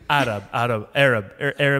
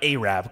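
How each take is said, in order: First: The word begins with a short 'Ar' sound. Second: The word begins with a separate 'A' syllable. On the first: The speaker calls it right. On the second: The speaker calls it wrong. "not A-Rap"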